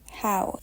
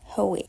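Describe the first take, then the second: First: The name is said as one syllable. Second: The name is said as two syllables. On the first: The speaker calls it right. "her name is pronounced How" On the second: The speaker calls it wrong. "and not Hoey"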